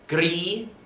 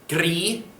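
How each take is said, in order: Both takes have the same delivery.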